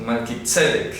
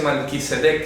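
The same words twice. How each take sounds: First: Melquisedec stressed on the SE syllable, the first E of sedec; correct pronunciation. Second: Malquisedec as the mistaken reading, stress shifted off the first E; plain-voiced mispronounced Malquisedec; wrong pronunciation. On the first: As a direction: model Melquisedec carefully as malki-TSE-dek. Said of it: "Tilde en la primera E". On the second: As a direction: say Malquisedec the incorrect way, stress on the last syllable. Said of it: "No se dice Malquisedec". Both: Shown as a demonstration.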